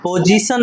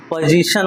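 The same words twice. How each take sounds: First: "पोजीशन" with a plain s sound, pojisan; wrong pronunciation. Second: "पोजीशन" with a clear sh, pojishan; correct pronunciation. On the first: Teacher showing pupils the mistake, "पोजीशन" said as pojisan. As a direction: say "पोजीशन" with s in place of sh. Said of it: "पोजीशन नहीं होता है". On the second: Teacher correcting pupils, "पोजीशन" said with a clear sh. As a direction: say "पोजीशन" with sh, not s. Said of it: "पोजीशन होता है". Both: Shown as a demonstration.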